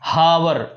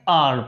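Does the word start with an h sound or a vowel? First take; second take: h sound; vowel. First: The word starts with an audible h sound. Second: The word starts directly with a vowel sound. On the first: The speaker calls it wrong. "ऐसा कुछ नहीं पढ़ते हैं" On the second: The speaker calls it right. "आर पढ़ते हैं"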